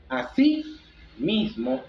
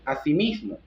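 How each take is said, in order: First: "así mismo" as two separate words; "así" con tono alto, pausa, luego "mismo"; así and mismo split by a pause. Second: Said in the usual way. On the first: Shown as a demonstration. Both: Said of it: "se escriben juntas o separadas".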